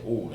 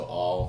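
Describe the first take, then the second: First: "all" with a rounded aw; British vowel. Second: "all" with an open ah; American vowel. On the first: Actor drilling his vowels, "all" with British vowel. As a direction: say "all" the London way. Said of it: "So I'll say all". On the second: Actor repeating drill words, "all" with American vowel. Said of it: "I'll just repeat those words". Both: Shown as a demonstration.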